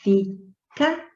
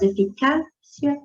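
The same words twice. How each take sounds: First: Eficácia broken into syllables, CÁ stressed; syllable-by-syllable stress demo. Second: Said in the usual way. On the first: Shown as a demonstration. Teacher reading out the word for its tonic syllable, stressed CÁ in eficácia. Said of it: "penúltima sílaba também mais forte". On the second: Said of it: "quando você faz a leitura".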